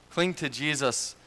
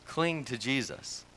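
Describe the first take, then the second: First: Second "Cling to Jesus" lifted higher, each word pressed; repeated, pitched higher. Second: Said in the usual way. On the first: Shown as a demonstration. Preacher urging the congregation to cling to Jesus, higher insistent repeat. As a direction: say "Cling to Jesus" again, climbing higher to drive it home.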